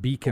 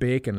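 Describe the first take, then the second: First: The first vowel sounds like 'ee'. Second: The first vowel sounds like 'ay'. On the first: The speaker calls it wrong. "You don't say it Beacon" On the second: The speaker calls it right. "You pronounce it Bacon, like the stuff you eat"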